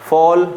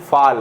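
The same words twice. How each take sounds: First: फॉल with rounded "aw", set off alone; correct rounded vowel. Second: फाल with unrounded "aa", set off alone; wrong open vowel. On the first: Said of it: "फॉल सही रहेगा". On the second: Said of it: "फाल हमारा गलत हो जाएगा". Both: Shown as a demonstration.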